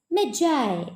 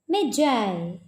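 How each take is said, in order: The two takes are said the same way.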